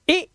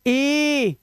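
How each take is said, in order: First: ई clipped very short; one quick burst of ई; short vowel. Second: ई stretched long and high; long vowel. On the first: Teacher contrasts the sounds, very short ई. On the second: Teacher contrasts the sounds, ई held long. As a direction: hold ई out as a long ee. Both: Shown as a demonstration. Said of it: "यही आवाजें हैं".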